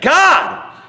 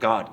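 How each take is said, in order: First: It is shouted loudly. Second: It is said quietly.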